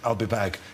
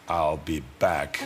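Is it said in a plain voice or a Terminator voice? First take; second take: plain voice; Terminator voice. First: It is said in his plain, ordinary voice. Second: It is said in his Terminator movie voice.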